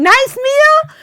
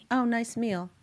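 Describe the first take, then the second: First: Very high, loud mock indignation; outraged echo. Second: Softer, tepid mock-husband praise; offhand compliment. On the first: Wife who cooked for days to husband, outraged. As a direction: shriek his words back in hammed-up disbelief. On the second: Husband after the Shabbos meal, offhand. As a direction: toss off the compliment with little interest.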